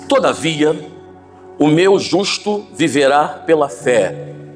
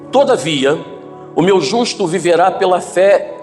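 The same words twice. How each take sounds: First: It is read slowly with clear pauses. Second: It is read at an ordinary, unhurried pace.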